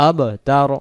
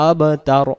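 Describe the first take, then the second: No difference in how they are said.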